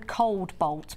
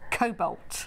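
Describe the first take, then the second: First: The word sounds like 'cold bolt'. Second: The word sounds like 'cobalt'. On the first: The speaker calls it wrong. "I always go cold bolt, but it's not" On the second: The speaker calls it right. "It's cobalt"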